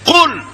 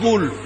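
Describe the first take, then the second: First: The word begins with a k sound. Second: The word begins with a g sound. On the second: "এটাকে তারা বলে গুল"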